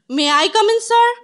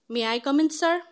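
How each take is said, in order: First: It is said loudly, almost shouted. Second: It is said quietly and nervously.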